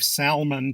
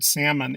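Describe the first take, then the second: First: Salmon mispronounced SAL-mun; sounded L. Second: Salmon said SAM-un; silent L. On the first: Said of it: "many of us believe salmon". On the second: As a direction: say salmon without its L. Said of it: "the L is silent". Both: Shown as a demonstration.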